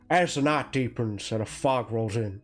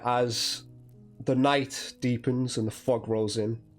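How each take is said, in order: First: It is said in an imitated celebrity voice. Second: It is said in the narrator's ordinary voice.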